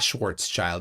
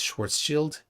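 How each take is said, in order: First: The last part does not sound like 'shield'. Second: The last part sounds like the word 'shield'. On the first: The speaker calls it wrong. "It's not Schwarzschild" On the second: The speaker calls it right. "like it's a shield"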